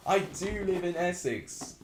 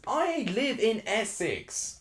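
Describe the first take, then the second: First: "I do" pressed hard, a touch slower; emphatic insistence. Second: "I" stressed, high and slow, protesting; insisting. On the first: Streamer repeats the claim to the doubting viewer, more emphatic. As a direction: hit "do" in "I do live in Essex" to insist. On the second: Streamer answers a viewer who doubts he's from Essex, insisting with stress on "I". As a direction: lean on "I" in "I live in Essex" to defend yourself. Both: Real, not acted. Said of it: "Fake Essex ads".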